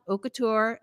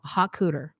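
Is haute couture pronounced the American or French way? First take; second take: French; American. First: It is pronounced with French sounds. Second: It is pronounced with American English sounds.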